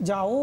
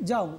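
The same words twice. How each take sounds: First: যাও split into ja-OO, o fully sounded; over-full vowel. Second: যাও in one short syllable, o gliding; half vowel. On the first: Teacher showing what we don't say, full vowel. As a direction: stretch যাও into two full syllables. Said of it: "আমরা বলি না". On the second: Teacher answering what we do say, half vowel. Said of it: "কি বলি?". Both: Shown as a demonstration.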